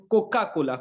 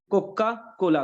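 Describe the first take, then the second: First: Coca Cola with the क of Coca hit firmly; stress on first sound. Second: Coca Cola, the doubled क in Coca held longer and hit harder; stress on first sound. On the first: Teacher stressing क of Coca for class. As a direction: lean on the opening क of Coca. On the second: Teacher repeats Coca, leaning on its क. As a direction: press the क of Coca firmly. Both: Shown as a demonstration.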